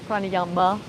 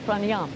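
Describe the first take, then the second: First: The word ends with a final vowel. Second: The word ends without a final vowel. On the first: This is how outsiders say it. The speaker calls it wrong. "They don't say pranayama" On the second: This is how it is said in India. The speaker calls it right. "they'll say pranayam"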